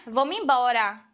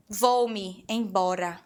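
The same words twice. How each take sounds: First: "Vou-me embora" run together as vomiembora; joined Northeast form. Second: "Vou-me embora" said slowly, each word apart: vou-me, then embora; separated vou-me embora. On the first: Teacher showing the Northeast joined version, run together. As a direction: glide "Vou-me embora" into one word. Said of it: "No Nordeste, já junta". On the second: Teacher showing students the separate form, slow. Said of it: "No Brasil". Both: Shown as a demonstration.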